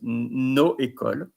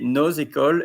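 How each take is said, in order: First: The s is silent with no link between words. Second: The s sounds as z joining the next word. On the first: The speaker calls it wrong. "and not nos écoles" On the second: The speaker calls it right. "You say nos écoles ... because there is a link"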